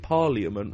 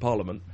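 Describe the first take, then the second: First: Every letter is sounded, including the middle i. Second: The middle i is dropped, like parl-a-ment. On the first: "I'd pronounce it how it's spelt" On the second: "rather than how it's said"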